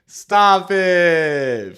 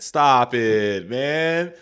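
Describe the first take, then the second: First: High, loud, fed-up shout; a much louder, higher stop it. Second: Firm, loud stop it, man; a loud, fed-up stop it. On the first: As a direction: yell it to shut it all down. Repeats it, more heated. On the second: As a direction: shut the idea down firmly. Reacting in disbelief to the policy. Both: Real, not acted.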